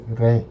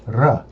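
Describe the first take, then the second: First: "re" softened, with an "eh" sound; soft consonant on "re". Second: "r" said hard, with an "uh" sound; hard consonant on "r". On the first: Learner showing what to say instead, soft R. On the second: Learner showing what not to say, hard R. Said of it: "instead of saying r, I say re". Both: Shown as a demonstration.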